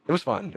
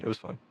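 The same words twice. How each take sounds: First: It was fun lifted high; "fun" said brightly, bit forced; higher ironic take. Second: "It was fun." dropped low and much softer; deadpan quiet. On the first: Telling friends about being choked, high ironic take. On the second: Taking back the claim, quiet deadpan. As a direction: mutter "It was fun." flat and soft. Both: Shown as a demonstration.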